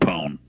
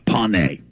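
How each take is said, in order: First: The name is said with one syllable. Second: The name is said with two syllables. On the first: The speaker calls it wrong. "A lot of people mispronounce it and say corn pone, but, you know, that's wrong" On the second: The speaker calls it right. "Yeah, pony"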